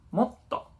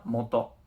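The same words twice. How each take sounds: First: Moto with a tiny pause before the t, like motto; doubled consonant. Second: Moto, even syllables with no pause; plain moto. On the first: Teacher showing students the small tsu in moto. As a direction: hold the t in moto for a beat. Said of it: "pequeña tsu y to". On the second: Teacher reading moto without the small tsu. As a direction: say moto smoothly with no break. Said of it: "si yo pongo mo y to". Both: Shown as a demonstration.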